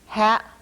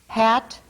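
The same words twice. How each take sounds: First: The final t is replaced by a glottal stop. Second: The final t is a normal oral stop. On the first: "glottal stop substitution" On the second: "normal stop"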